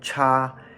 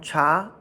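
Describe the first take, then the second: First: The pitch stays high and level. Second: The pitch rises from middle to high. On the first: "First tone cha" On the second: "second tone cha"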